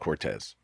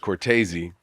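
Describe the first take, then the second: First: It is said American style, in two syllables. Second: It is said Italian style, in three syllables. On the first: This is the version used growing up in America. "I grew up being called Cortez" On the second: This is the original family version from Italy. "properly pronounced Italian"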